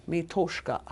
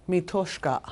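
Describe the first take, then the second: No difference in how they are said.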